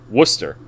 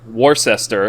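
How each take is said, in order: First: Middle syllables are dropped, giving a short form. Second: Every written syllable is pronounced in full. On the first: This is how locals actually say it. "we pronounce it Worcester" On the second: This is how the spelling suggests it. "it's spelled like Worcester"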